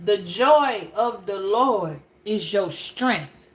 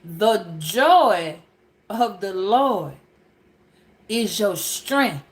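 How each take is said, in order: First: Reads "The joy of the Lord is your strength" slowly and lower; slow scripture reading. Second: "The joy", "of the Lord", "is your strength" split by pauses, slow and lower; drawn-out preacher's repeat with a lower voice; slow emphatic repeat. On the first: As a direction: read the verse out slowly, word by word. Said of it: "It says". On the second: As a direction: hammer each phrase home with long pauses. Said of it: "That's what I'm talking about". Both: Shown as a demonstration.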